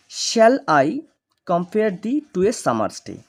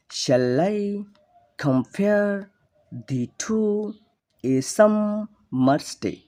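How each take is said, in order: First: Said in the usual way. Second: Slow chant of "Shall I compare the two a summer's day?", each second syllable raised and held; iambic pentameter reading. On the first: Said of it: "এই যে লাইনটি আমরা কিন্তু এভাবে পড়ব না". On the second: Shown as a demonstration. Teacher demonstrating the meter to students, sing-song iambic "Shall I compare the two a summer's day?". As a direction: break "Shall I / compare / the two / a summer's day?" into weak-STRONG beats with pauses. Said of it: "iambic পেন্টামিটারে বলার চেষ্টা করছি".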